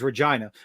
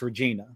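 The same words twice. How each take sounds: First: Regina is pronounced the way the city is. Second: Regina is pronounced the way the woman's name is. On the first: It refers to the city. "The city's name is Regina" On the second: It refers to a woman. "if it's a woman's name, it's Regina"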